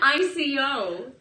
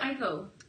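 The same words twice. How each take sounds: First: It is spelled out as three separate letters. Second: It is said as a single word, like Aiko. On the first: The speaker calls it right. "It's called an I C O" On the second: The speaker calls it wrong. "Why do you call it I C O?"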